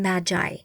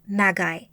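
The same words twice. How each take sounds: First: The g is pronounced as a soft g. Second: The g is pronounced as a hard g.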